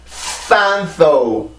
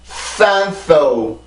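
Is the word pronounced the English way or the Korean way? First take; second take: English; English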